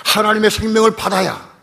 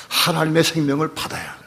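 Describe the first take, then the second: First: 생명을 said much higher and louder; emphatic repeat. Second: Said in the usual way. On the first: Real, not acted. Preacher stressing the need for God's life, emphatic cry. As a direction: hammer home 하나님의 생명을. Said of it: "repeated louder". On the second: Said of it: "repeated climax".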